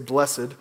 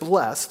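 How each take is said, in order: First: The word is said as two syllables. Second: The word is said as one syllable. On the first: It sounds more formal and elevated. The speaker calls it wrong. "It sounds fancier, I guess, to say blessed" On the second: It is the ordinary everyday form. The speaker calls it right. "It's just blessed"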